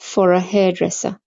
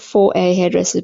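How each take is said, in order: First: The words 'for a' are reduced with a schwa. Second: The words 'for a' are said fully. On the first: The speaker calls it right. "there's the schwa at the end" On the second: The speaker calls it wrong. "So not"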